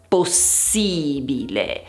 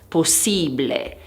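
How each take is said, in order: First: The ending is said fully as bi-le. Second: The ending is squeezed into ble. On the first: The speaker calls it right. "bile e non ble" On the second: The speaker calls it wrong. "gli studenti dicono possibile"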